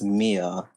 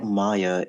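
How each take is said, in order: First: The name is said like Mia, the French way. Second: The name is said with two syllables, like Maya. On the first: The speaker calls it right. "it's Mia" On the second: The speaker calls it wrong. "it's not Maya"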